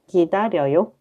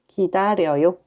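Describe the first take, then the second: The two takes are said the same way.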